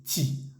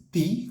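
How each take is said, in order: First: Ti whispered, tongue behind the teeth; whispered French ti. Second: Ti said the Spanish way, higher. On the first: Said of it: "La T con la I suena ti". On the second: Teacher contrasts the Spanish ti for students. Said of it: "como diríamos en español". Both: Shown as a demonstration.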